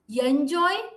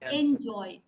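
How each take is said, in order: First: A 'y' sound is added before the vowel. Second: It starts directly with the vowel sound. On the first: The speaker calls it wrong. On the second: The speaker calls it right. "it's enjoy ... Don't add a year here"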